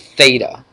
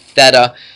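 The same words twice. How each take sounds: First: The vowel sounds like 'ay'. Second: The vowel does not sound like 'ay'. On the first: The speaker calls it right. "It's theta. It sounds like an A" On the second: The speaker calls it wrong. "not theta"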